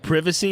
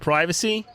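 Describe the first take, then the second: First: It is said in a British accent. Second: It is said in an American accent. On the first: "in the U K they say privacy" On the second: "instead of privacy"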